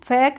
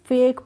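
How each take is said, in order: First: The vowel is a short 'a' as in cat. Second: The vowel is a long 'ay' as in day. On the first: The speaker calls it wrong. "इसको हम फैक नहीं पढ़ेंगे" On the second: The speaker calls it right. "इसको फेक पढ़ेंगे"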